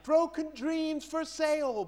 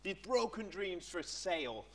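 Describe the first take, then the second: First: High, slow hawker's call; market seller cry. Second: Said in the usual way. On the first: Pretend. Preacher playing a market seller selling broken dreams, calling out. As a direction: cry it out like a street trader. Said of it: "a market seller standing there selling". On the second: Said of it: "imagine if it was a market seller".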